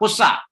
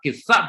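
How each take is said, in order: First: The first vowel is a u sound. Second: The first vowel is an i sound. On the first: This is the less common form. "Kadang qafnya itu dibaca dhammah" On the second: This is the more common form. "Tapi yang paling banyak adalah kisah dengan kasrah"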